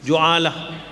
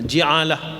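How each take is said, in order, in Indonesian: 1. Vokal pertama adalah bunyi 'u'. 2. Vokal pertama adalah bunyi 'i'. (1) "bab ju'alah boleh juga dibaca dengan" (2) "boleh juga dibaca dengan uh"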